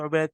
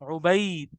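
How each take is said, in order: First: The name is said the Urdu way. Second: The name is said the Arabic way, with leen. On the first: "हम लोग बोलते हैं" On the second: "वो बोलेगा या उबैद, उबैद। क्योंकि उसमें लीन हो रहा है"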